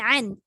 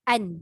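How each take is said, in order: First: The vowel starts with a hard, pressed throat sound. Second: The vowel starts with a light, unpressed catch. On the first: The speaker calls it wrong. "Bukan an" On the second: The speaker calls it right. "Jangan tekan kuat"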